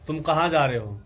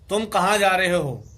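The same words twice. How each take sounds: First: It is said at medium level, a bit louder. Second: It is said high and loud.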